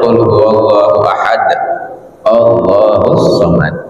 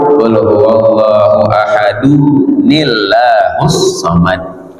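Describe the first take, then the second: First: The verses are separated, ending ahad with a stop. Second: The verses are linked with an added nun sound. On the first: "kalau kita baca dipisah" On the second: "kalau disambung"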